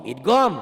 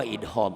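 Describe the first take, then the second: First: Idgham said "idgom", high and loud; loud corrected idgham with the G sounded; hard G correction. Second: Idgham said "idhom", as attributed to Javanese speakers; Javanese-style H. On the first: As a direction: punch IDGHAM with a firm G, "idgom". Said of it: "Jangan idgham". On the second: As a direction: say IDGHAM with H replacing the G sound. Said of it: "orang Jawa idgham". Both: Shown as a demonstration.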